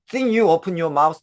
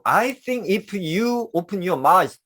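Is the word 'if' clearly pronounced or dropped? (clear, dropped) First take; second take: dropped; clear. First: 'I' and 'if' are dropped into the linked words. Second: Every word, including 'if', is fully pronounced. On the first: "이게 굉장히 편해요" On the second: "이렇게 하지 않고"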